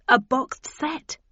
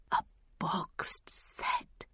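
First: Slow, higher, dangled offer; tantalising build-up. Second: Very slow, hushed whisper; whispered awe. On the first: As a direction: draw it out, pitch lifted, to tempt him. Tempts Jack with grander prospect. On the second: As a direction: whisper it word by word, entranced. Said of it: "he whispered". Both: A narrator's reading.

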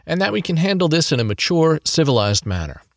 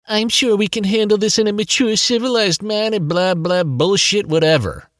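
First: Said in the usual way. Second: High whiny mimicking voice; mock him back in a high whine; whiny copycat voice. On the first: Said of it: "says this in his whiny copycat voice". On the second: A narrator's reading. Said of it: "in his whiny copycat voice".

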